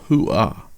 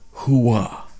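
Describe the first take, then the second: First: The second syllable starts without a strong w. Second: The second syllable starts with a strong w. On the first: The speaker calls it right. "The real version is closer to hoo-ah" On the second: The speaker calls it wrong. "far too much emphasis on the "w" sound in the second syllable"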